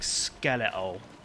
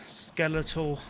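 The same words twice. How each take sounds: First: The T sound is dropped, in an accent. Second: The T sound is clearly pronounced. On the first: The speaker calls it right. "I meant to say, like" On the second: The speaker calls it wrong. "I accidentally pronounced the T"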